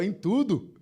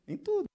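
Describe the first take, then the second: First: Said in the usual way. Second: Em tudo jumped much higher and softer, rising; high questioning rise. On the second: Shown as a demonstration. Preacher stressing to the congregation, high soft rise.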